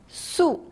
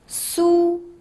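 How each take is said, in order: First: The pitch falls sharply from high. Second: The pitch stays high and level.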